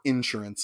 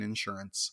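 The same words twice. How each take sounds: First: The word is said in a Texas accent. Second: The word is said in a standard accent.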